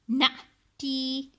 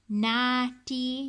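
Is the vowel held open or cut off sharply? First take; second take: cut off; open. First: The vowel is cut off with a sharp stop. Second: The vowel is held open and long. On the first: The speaker calls it right. "read it as if it's a shocking letter" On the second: The speaker calls it wrong. "instead of saying it as nati"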